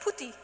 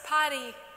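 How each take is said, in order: First: It is said with a European accent. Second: It is said with an American accent. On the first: "In Europe, we say putty" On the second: "Americans says party"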